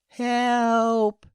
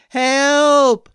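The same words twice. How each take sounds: First: The word is said very quietly. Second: The word is said very loudly. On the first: The caller does not want to disturb anyone. "at first in a very quiet voice so as not to disturb anyone" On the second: The caller urgently needs to be heard. "then very loudly"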